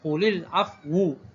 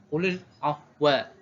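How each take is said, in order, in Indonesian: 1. Kata terakhir berakhir dengan vokal u. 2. Kata terakhir berakhir dengan vokal a. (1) "baris hadapan huruf waw" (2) "al-baqun baca dengan bin nasbil waw"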